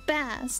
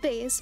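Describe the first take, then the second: First: The vowel sounds like the one in 'class'. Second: The vowel sounds like the one in 'face'. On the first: It names the fish. The speaker calls it right. "The fish? Okay. I got it now. Bass" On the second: It names the low-pitched guitar. The speaker calls it wrong. "not bass"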